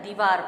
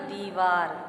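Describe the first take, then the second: First: The first vowel is a short i. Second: The first vowel is a long ee. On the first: The speaker calls it wrong. "छोटी ई की मात्रा अगर है तो दीवार पढ़ेंगे, जो कि अशुद्ध है" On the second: The speaker calls it right. "बड़ी ई की मात्रा दीव द पर लगेगी तो होगा दीवार"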